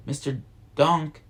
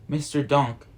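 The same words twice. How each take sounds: First: Mildly insistent second call; louder shout. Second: Lightly called name; calling out. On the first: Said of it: "Max shouts louder". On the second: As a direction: call for someone's attention, restrained. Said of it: "Max calls". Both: A narrator's reading.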